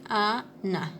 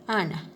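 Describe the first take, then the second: First: "ana" drawn out very slowly as two parts, a, na; syllable by syllable. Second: Said in the usual way. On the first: Shown as a demonstration. Teacher showing the class where rhymes coincide, syllable by syllable. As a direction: split "ana" into long, separate syllables. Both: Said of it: "cuál sería la coincidencia".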